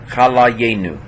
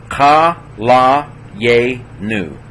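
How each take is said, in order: First: Said in the usual way. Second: Ka la ye nu, very slow, a gap after each syllable; teacher's drawn-out breakdown of ka la ye nu. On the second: Shown as a demonstration. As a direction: sound out ka la ye nu one held syllable at a time. Teacher sounds word out by syllables.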